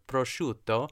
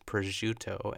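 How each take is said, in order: First: The word is said in an exaggerated, over-the-top way. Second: The word is said plainly, without exaggeration. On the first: This is how the word should be said. The speaker calls it right. "you don't have to say it crazy like I just did" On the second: This is how someone else said it. The speaker calls it wrong. "She says prosciutto"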